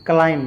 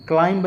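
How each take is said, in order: First: क्लाइम ending on M; correct pronunciation. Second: क्लाइंब with B sounded after M; wrong pronunciation. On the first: Teacher models the rule, क्लाइम without B. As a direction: drop the final B of क्लाइम. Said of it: "बी को हमेशा silent कर देना". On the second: Teacher warns against misreading, क्लाइंब as spelt. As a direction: release a B at the end of क्लाइंब. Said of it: "क्लाइंब नहीं बोलेंगे". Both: Shown as a demonstration.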